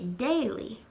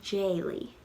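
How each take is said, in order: First: The word begins with a hard D sound. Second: The word begins with a J sound. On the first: The speaker calls it wrong. "we wouldn't say daily" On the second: The speaker calls it right. "we would say jaily"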